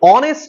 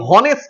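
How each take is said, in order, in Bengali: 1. শব্দটি স্বরধ্বনি দিয়ে শুরু হয়। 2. শব্দটি h ধ্বনি দিয়ে শুরু হয়। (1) "অনেস্ট শব্দটি বলছি আমি" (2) "হনেস্ট বলছি না"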